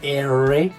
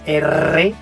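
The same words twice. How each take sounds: First: The R is smooth without the tongue touching. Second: The R is rolled with the tongue tapping. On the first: This is the English sound. "en el inglés es la lengua no alcanza a tocar el paladar" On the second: This is the Spanish sound. "nuestro sonido en español es R"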